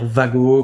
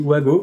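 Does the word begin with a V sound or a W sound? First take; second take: V sound; W sound. First: The word begins with a V sound. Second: The word begins with a W sound. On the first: "c'est une marque allemande, faudrait dire Wago" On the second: "moi je dis Wago"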